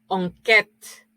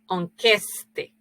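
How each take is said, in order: First: It is said without an s before the t. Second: It is said with an s before the t. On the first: The modern form of the word. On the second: The older form of the word.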